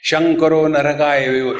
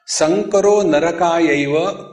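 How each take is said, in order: First: The first word begins with an sh sound. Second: The first word begins with a plain s sound. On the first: "So the Bengalis repeat" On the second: "One verse in Bhagavad Gita is"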